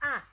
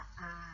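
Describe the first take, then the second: First: It is said with the fourth tone. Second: It is said with the third tone.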